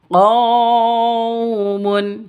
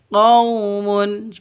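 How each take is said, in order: First: The 'qau' sound is jerked or drawn out. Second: The 'qau' sound is soft, short and smooth. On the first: The speaker calls it wrong. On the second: The speaker calls it right. "Yang betul qaumun, begitu"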